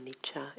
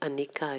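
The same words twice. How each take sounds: First: The middle consonant is a 'ch' sound. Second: The middle consonant is a hard 'k' sound. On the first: The speaker calls it right. "the C is is pronounced as cha" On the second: The speaker calls it wrong. "Instead of anicca"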